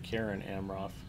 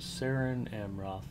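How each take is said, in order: First: The name begins with a hard K sound. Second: The name begins with a soft S sound. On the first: The speaker calls it right. "always use a hard C" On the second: The speaker calls it wrong. "I'm sorry"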